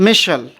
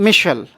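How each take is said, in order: Both takes have the same delivery.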